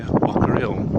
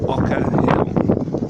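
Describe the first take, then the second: First: It is said in a local Black Country accent. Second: It is said in the speaker's neutral accent.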